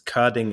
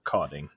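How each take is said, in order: First: The first vowel is a rounded front ö sound. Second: The first vowel is a plain back o sound. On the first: The speaker calls it right. "I technically have two dots on my O" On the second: The speaker calls it wrong. "the way Americans pronounce my name"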